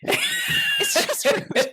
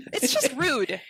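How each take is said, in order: First: Much higher, very slow, breathy squeal of outrage; mock outraged shriek. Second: Raised, higher indignant complaint. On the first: Speaker hamming up outrage over the raw turkey, slow squeal. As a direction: draw it out as a hammed-up squeal. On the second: Speaker complaining about the raw turkey gift, indignant. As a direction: call it out, offended. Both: Real, not acted.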